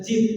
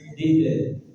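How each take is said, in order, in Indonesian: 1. Suku kata terakhir dimulai dengan bunyi j. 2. Suku kata terakhir dimulai dengan bunyi d. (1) "bukan jid" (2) "tapi did"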